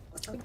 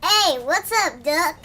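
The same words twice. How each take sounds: First: "Doc" said with an open ah vowel, as in dock; correct Doc. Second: "Duck" said with a short uh sound instead of "Doc"; mispronounced Doc. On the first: Shown as a demonstration. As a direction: stress a clear ah in "Doc". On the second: Retold or imitated. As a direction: say "Duck" like the word duck, with uh.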